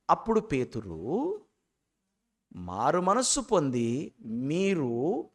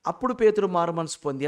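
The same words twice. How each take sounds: First: Slow, with a long pause after "అప్పుడు పేతురు"; corrected phrasing. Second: "పేతురు మారు మనసు పొంది" read straight through as one phrase; wrong phrasing. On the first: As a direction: set "మారు మనస్సు పొంది మీరు" apart, drawn out after a pause. ("అప్పుడు పేతురు" తర్వాత ఆగి నెమ్మదిగా చదవడం) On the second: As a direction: run "అప్పుడు పేతురు మారు మనసు పొంది" together with no pause. ("అప్పుడు పేతురు మారు మనసు పొంది" ఆపకుండా కలిపి చదవడం) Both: Shown as a demonstration. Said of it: "అని చదవకూడదు".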